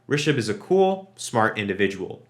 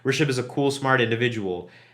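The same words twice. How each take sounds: First: There is a clear pause after cool. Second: There is no pause after cool. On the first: The speaker calls it right. "There is that intentional pause there where you need that comma" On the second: The speaker calls it wrong. "You can't just say"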